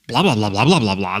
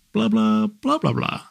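First: Said in the usual way. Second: High, sing-song blah blah; imitating his wife's high chatter; a playful high-pitched babble; mock high blah. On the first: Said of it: "And I'll go". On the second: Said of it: "other days she'll go".

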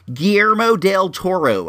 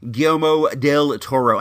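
First: Guillermo del Toro in a put-on accent, pitched up. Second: Said in the usual way. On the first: Shown as a demonstration. Host showing his easier way, accented Guillermo del Toro. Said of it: "I'll say it like that". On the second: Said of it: "I have such a hard time with that word".

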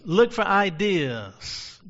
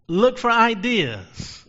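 First: Said in the usual way. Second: High, loud and slow; sermon point stressed; emphatic slow preaching. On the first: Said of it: "repeated softer". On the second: Shown as a demonstration. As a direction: lean into each word. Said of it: "repeated for emphasis".

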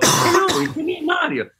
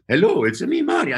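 First: High, bright-pitched Mario. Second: High Mario voice. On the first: Friend's first try at Mario, high and chirpy. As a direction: chirp it out as the cheerful plumber. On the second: Second take of the Mario greeting, high. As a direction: pitch way up on Mario. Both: Retold or imitated. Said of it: "He goes".

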